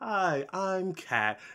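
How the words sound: It is said in a high, boyish voice.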